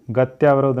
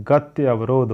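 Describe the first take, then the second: First: "गत्यावरोध" joined up as gatyaa-varodh; wrong form demo. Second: "गत्य अवरोध" split as gati, avrodh; correct form demo. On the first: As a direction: run "गत्यावरोध" together with a tyaa. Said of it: "नहीं होता है". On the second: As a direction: separate "गत्य अवरोध" into two parts. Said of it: "होता है". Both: Shown as a demonstration.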